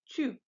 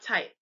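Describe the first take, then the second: First: The vowel is a rounded u-like sound. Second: The vowel is said as in English type. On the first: The speaker calls it right. "it's pronounced Typ" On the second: The speaker calls it wrong. "not type"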